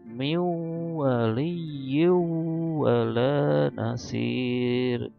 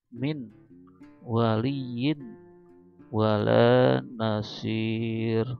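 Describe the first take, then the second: First: The n merges into a nasalized w. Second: The n is pronounced clearly before the w. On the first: The speaker calls it right. "diidgham dan gunakan" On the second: The speaker calls it wrong.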